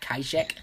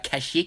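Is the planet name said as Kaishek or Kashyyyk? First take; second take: Kaishek; Kashyyyk. First: The name is said as Kaishek. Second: The name is said as Kashyyyk. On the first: The speaker calls it wrong. "not Kaishek" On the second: The speaker calls it right. "it's actually pronounced uh"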